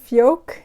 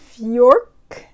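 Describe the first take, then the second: First: The vowel is 'o' with no R sound. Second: The vowel is 'or' with an R sound. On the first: The speaker calls it right. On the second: The speaker calls it wrong. "but I feel like I'm adding an R in there"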